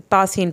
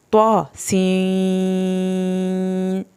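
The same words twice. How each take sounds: First: "تاسین" quick, with a light t and short vowels; common misreading. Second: "طوا سین" very slowly, heavy T and long held i; correct reading. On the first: Teacher showing how people misread it, short light-t "تاسین". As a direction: say "تاسین" unstretched with a thin t. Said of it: "اکثر لوگ تاسین پڑھتے ہیں". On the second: Teacher showing the right reading, elongated "طوا سین". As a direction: chant "طوا سین" with the seen stretched on a level tone. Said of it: "سب سے پہلے آپ نے طوا کا sound". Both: Shown as a demonstration.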